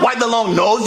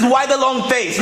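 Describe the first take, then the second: First: "why the long nose" with nose said as the wrong word; wrong phrase stressed. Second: Said in the usual way. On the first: Shown as a demonstration. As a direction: correct him on "nose". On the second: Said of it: "The expression is".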